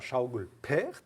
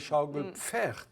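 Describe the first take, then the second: First: No f sound follows the p. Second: An f sound follows the p. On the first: This is the local Francique form. "on a fait sauter ce fameux F après le P" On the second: This is the standard German form. "en allemand, ce serait Schaukelpferd avec un F"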